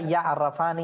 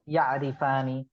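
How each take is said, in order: First: The vowel after the r is 'a'. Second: The vowel after the r is 'i'. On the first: The speaker calls it wrong. "ये गलत होगा" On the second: The speaker calls it right. "Z के साथ है जी"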